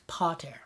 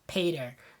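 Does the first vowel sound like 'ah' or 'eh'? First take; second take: ah; eh. First: The first vowel sounds like open 'ah'. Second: The first vowel sounds like English 'eh'. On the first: The speaker calls it right. "Now it's pater, right?" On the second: The speaker calls it wrong. "not to pronounce our Latin A's like eh"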